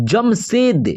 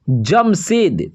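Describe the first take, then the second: First: Said in the usual way. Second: Jamshed stretched slow, syllable by syllable; slow dictation of Jamshed; drawn out slowly. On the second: Shown as a demonstration. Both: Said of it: "तो जमशेद का हो जाएगा".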